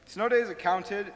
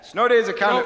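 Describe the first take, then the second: First: It is said at normal volume. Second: It is said loudly.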